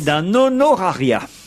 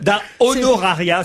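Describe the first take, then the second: First: The n of un runs into the next word. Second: The n of un stays apart from the next word.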